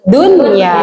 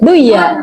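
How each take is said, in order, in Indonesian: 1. Bunyi n dibaca jelas sebelum y. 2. Bunyi n menyatu dengan y setelahnya. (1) "Harus diperjelas" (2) "tidak boleh dibaca"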